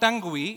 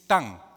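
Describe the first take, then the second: First: The final 'ue' is sounded as an extra syllable. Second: The final 'ue' is silent, one syllable only. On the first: The speaker calls it wrong. "It's not tongue" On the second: The speaker calls it right. "the U-E is silent"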